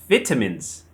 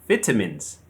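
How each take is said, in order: The two takes are said the same way.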